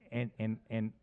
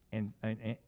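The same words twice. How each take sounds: The two takes are said the same way.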